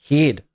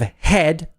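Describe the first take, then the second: First: Head is said in a New Zealand accent. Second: Head is said in a standard accent. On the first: "they say head" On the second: "instead of head"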